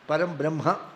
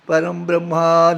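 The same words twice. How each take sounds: First: The final vowel of Brahma is kept short. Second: The final vowel of Brahma is drawn out long. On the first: This is the actual form of the word. The speaker calls it right. "But actually, it is" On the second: This is how it is sung with music. The speaker calls it wrong. "when we sing, we make it, make it long"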